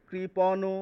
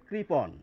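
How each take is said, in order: First: The word ends with a final o-like vowel. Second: The word ends on a bare consonant. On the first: The speaker calls it wrong. "এটি কিন্তু কৃপণ নয়" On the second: The speaker calls it right. "হসন্ত উচ্চারণ করতে হবে, শেষের অ এর উচ্চারণ করা যাবে না"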